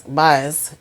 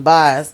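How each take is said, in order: First: "Bias" said as BYE-us, long "eye" vowel; corrected name. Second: "Bias" said as bahs, flat short vowel; "Bias" tried quickly, a short "ah" sound; first try at the name. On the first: Recapper correcting herself, saying "Bias" as BYE-us. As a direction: fix it: "Bias" with a clear long i. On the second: Recapper stumbling on the player's name, saying "Bias" as bahs. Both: Shown as a demonstration.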